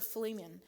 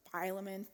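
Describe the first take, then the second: First: Philemon as "fih-LEE-mun"; first pronunciation variant. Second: Philemon as "FY-luh-mun"; alternative pronunciation. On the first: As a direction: say Philemon with a long EE in the middle. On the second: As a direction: say Philemon starting like "file", softly. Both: Shown as a demonstration. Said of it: "listened to different pronunciations".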